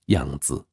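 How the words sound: The name is said with Mandarin pronunciation.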